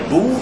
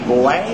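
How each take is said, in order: First: The vowel is an 'oo' sound. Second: The vowel is not an 'oo' sound. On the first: The speaker calls it right. "il faut dire Boer, ... on prononce ça ou" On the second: The speaker calls it wrong. "Les gens disent toujours la guerre des Boers"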